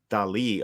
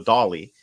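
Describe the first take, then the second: First: It is said like the painter Dali. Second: It is said like the name Dolly. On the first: The speaker calls it right. "more [name], like the painter" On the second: The speaker calls it wrong. "it's so easy to want to say Hello Dolly"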